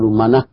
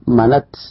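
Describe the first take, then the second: First: The word ends in a soft h sound. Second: The word ends in a silent-vowel t sound. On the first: "تبدل هذه التاء هاء وتخف عليه فتقول منة" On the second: "يجوز أن تثبت التاء وتسكنه فتقول منت"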